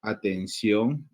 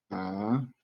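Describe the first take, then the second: First: Said in the usual way. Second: "atención" split into a, ten, ción with long pauses; syllable by syllable. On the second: Shown as a demonstration. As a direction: sound out "atención" one syllable at a time. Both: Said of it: "esta es la sílaba átona".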